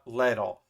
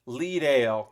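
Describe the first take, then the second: First: The name ends with a reduced 'dle' sound. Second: The name ends with a full 'dale' sound. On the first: The speaker calls it wrong. "not Leadle" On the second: The speaker calls it right. "like Lee Leadale"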